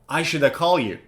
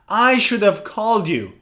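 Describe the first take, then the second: First: Should have is reduced to shoulda. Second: Should have is said in full. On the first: "you could say shoulda" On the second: "Instead of should have"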